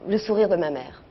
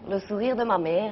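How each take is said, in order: First: It is said in a plain French accent. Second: It is said in an Italian accent. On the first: The speaker calls it wrong. "Mais pas comme ça" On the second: The speaker calls it right. "Avec l'accent"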